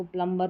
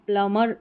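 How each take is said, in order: First: Softly said प्लम्बर with b sounded; wrong pronunciation. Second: प्लमर with no b; correct silent b. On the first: Teacher quoting common confusion, b voiced in प्लम्बर. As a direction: keep the b audible in प्लम्बर. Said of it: "जो कि गलत रहता है". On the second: Teacher stating correct form, प्लमर with silent b. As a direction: glide from m to ending in प्लमर. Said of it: "इसका correct pronunciation है". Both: Shown as a demonstration.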